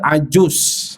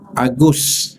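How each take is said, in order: First: The middle consonant is a 'j' sound. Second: The middle consonant is a hard 'g' sound. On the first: This is the standard Arabic form. "Bahasa betul dia Ajus" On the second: This is how Egyptian Arabs say it. "Jim tu jadi Ga"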